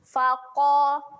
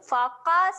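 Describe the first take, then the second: First: The q sound is heavy, with lips rounded. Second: The q sound is light, with lips unrounded. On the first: The speaker calls it right. "muncungkan mulut" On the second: The speaker calls it wrong. "Faqa salah eh"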